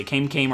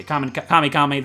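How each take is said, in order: First: Kame said KAYM, rhyming with "name"; one-syllable Kame. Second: Kame said KAH-mee; two-syllable Kame. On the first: Player unsure of the right way, Kame as KAYM. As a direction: say each Kame like "came". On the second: Player unsure of the right way, Kame as KAH-mee. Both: Shown as a demonstration. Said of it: "There's no right way to say it".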